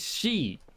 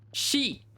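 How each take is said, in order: First: It starts with a y-like sound, no hiss. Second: It starts with a soft hissing sh sound. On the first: The speaker calls it wrong. "Like with a J, not with an H sound" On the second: The speaker calls it right. "you gotta pronounce she"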